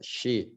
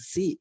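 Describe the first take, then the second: First: The word begins with an sh sound. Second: The word begins with a plain s sound. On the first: The speaker calls it right. "she pakai shin gitu" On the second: The speaker calls it wrong. "masih bilang si gitu kan, ya itu salah kan"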